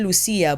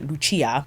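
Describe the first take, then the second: First: The name is said with an anglicized pronunciation. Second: The name is said with an Italian pronunciation. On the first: The speaker calls it wrong. "I said Lucia" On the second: The speaker calls it right. "it's actually Lucia"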